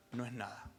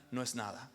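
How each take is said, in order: Both takes have the same delivery.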